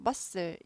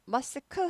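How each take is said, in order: First: No k sound is heard in the middle. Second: A k sound is heard in the middle. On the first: The speaker calls it right. "얘는 아예 발음을 하지 말라고" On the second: The speaker calls it wrong. "muscle 하지 않고"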